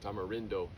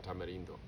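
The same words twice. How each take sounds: First: The name is said with an English accent. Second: The name is said with a Spanish accent.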